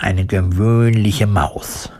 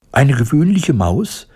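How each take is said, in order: First: Said in the usual way. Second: High, affronted mouse squeak, rising question; indignant squeak. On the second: A narrator's reading. Mouse echoing the woodcutter's slight, indignant squeak. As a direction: squeak it back in offence. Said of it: "piepste das Tierchen empört".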